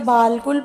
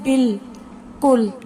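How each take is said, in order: First: The first syllable has a long aa vowel. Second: The first syllable has a short vowel, no long aa. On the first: The alif would be sounded. The speaker calls it wrong. "अगर अलिफ की आवाज आती तो हम इसे बालकुल पढ़ते" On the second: The alif is silent and not counted. The speaker calls it right. "बे और लाम आपस में मिल रहे हैं, अलिफ की आवाज नहीं आती"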